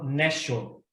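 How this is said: The middle consonant is an SH sound. This is how the northern half of the country says it. "E do meio para o norte, eles falam Nesho"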